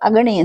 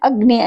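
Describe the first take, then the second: First: A vowel is inserted between g and n. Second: The consonants g and n are said together. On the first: This is how an outsider pronounces the word. "ಅಗಣಿ ಅಂತಿರ್ತಾನೆ" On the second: This is the standard pronunciation. "ಅಗ್ನಿ ಅನ್ನೋಕ್ಕೆ ಬದಲು"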